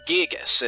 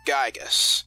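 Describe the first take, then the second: First: The first vowel sounds like 'ee'. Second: The first vowel sounds like 'eye'. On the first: The speaker calls it right. "that's why I pronounce it Gigas" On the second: The speaker calls it wrong. "and not Gygas"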